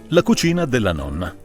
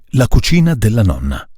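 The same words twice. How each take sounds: First: Close-miked speech with no audible plosive pops. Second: Close-miked speech with audible plosive pops. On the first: The speaker calls it right. "non sta assolutamente sentendo i colpi la capsula" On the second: The speaker calls it wrong. "Colpisce la capsula, non c'è niente da fare"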